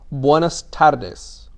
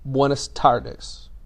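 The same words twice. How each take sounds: First: The r in tardes is trilled. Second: The r in tardes is a hard r. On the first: "So if you can trill, you're going to sound" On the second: "If you can't trill, don't worry about it. You're going to sound"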